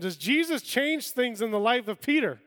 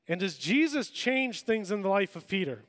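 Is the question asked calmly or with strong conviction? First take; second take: strong conviction; calmly. First: The question is asked with forceful, strong conviction. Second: The question is asked in a plain, calm way.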